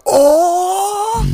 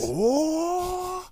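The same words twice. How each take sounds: First: High loud excited gasp. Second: High Goku power up cry; power up scream. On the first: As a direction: burst out with a high oh. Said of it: "but just be like". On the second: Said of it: "you sound like Goku powering up". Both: Retold or imitated.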